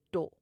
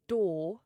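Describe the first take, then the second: First: "do" cut short as "daw", the wrong way; short vowel, no R. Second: "do" drawn out as "daww"; long O, no R. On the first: Teacher showing what to avoid, "do" with the O not lengthened. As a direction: say door as "do" with no R and a short O. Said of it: "not do". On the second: Teacher repeating the right form, "do" as long "daw". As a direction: say door as "do" with no R and a long O. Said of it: "you elongate the O". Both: Shown as a demonstration.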